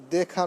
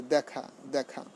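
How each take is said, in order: First: দেখা with closed "e", "day-kha"; wrong form. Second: দেখা with open "æ", "dæ-kha"; correct pronunciation. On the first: Teacher rejecting the error, দেখা said "day-kha". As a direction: say দেখা with an "ay" vowel. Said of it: "দেখা নয়". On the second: Teacher correcting students, দেখা said "dæ-kha". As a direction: open the first vowel of দেখা to "æ". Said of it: "এভাবে আমাদের উচ্চারণ". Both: Shown as a demonstration.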